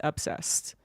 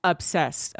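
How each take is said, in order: First: Whispered obsessed; hushed for emphasis. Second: Said in the usual way. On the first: Shown as a demonstration. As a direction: breathe the word obsessed with no voice. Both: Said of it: "She is obsessed".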